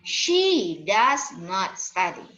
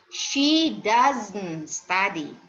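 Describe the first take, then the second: First: Does and not are said as two full words. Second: Does and not are merged into one contracted word. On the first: The speaker calls it wrong. "bukan does not dibaca" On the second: The speaker calls it right. "kalau kita membacanya ya"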